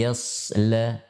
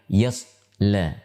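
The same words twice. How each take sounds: First: The s sound flows on with continuous air. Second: The s sound is pressed and cut off. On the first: The speaker calls it right. "tapi yasla" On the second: The speaker calls it wrong. "bukan yasla"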